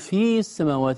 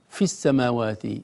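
First: The vowel of the first word is long. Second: The vowel of the first word is short. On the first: The speaker calls it wrong. "لا نقول في السماوات" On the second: The speaker calls it right. "نقول مثلا في السماوات"

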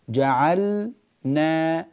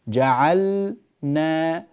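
No difference in how they are said.

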